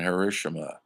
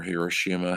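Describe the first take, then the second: First: Hiroshima with stress on the second syllable; one pronunciation. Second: Hiroshima with stress on the third syllable; alternative pronunciation. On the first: Lecturer naming the bombed city, Hiroshima stressed on RO. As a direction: say Hiroshima as hih-ROH-shih-muh. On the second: Lecturer offering another way to say it, Hiroshima stressed on SHI. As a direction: say Hiroshima as heer-oh-SHEE-muh. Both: Shown as a demonstration. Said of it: "however you wanna pronounce it".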